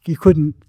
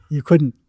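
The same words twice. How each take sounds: The two takes are said the same way.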